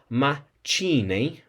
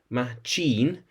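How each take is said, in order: First: The middle consonant is a ch sound. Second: The middle consonant is an sh sound. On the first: The speaker calls it wrong. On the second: The speaker calls it right.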